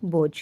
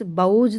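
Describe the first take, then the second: First: Said in the usual way. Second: बोझ said as baujh with au, the wrong vowel; wrong pronunciation pointed out by teacher. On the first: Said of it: "only बोझ". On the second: Shown as a demonstration. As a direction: deliberately mispronounce बोझ as baujh. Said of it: "बोझ तो नहीं बोलते".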